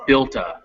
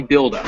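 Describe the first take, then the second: First: "built a" joined, T kept and "a" reduced to uh; linked "a". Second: "build a" with a D in place of T, as bild-uh; rejected D version. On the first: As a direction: model "built a" as "bilt-uh". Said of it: "the A would then be a". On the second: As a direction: show the wrong "build a" with a D. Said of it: "it would not be". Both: Shown as a demonstration.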